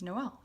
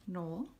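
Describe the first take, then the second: First: Noel said no-EL, as for Christmas; Noel as two syllables. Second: Noel said like "nole", the man's name; Noel as one syllable. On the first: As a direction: sound the o and e of Noel separately. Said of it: "pronouncing them separately". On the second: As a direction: run the vowels of Noel together as one. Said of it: "a man's name". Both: Shown as a demonstration.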